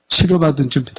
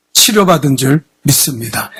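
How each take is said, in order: First: Softer prompt. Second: Said in the usual way. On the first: Shown as a demonstration. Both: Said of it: "아멘도 못해요?".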